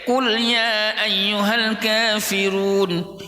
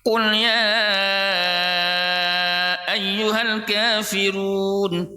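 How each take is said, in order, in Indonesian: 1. Vokal sebelum 'ayyuhal' dibaca sangat pendek. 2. Vokal sebelum 'ayyuhal' dibaca sangat panjang. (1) "yang baca pendek" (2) "sampai lima ketukan, lima harokat"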